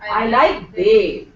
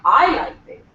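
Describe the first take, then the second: First: The stress falls on the word Dave. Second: The stress falls on the word I. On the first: Only this person is liked, nobody else. "Here the stress will be on Dave" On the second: The speaker is the one who likes him. "Now the stress is on I"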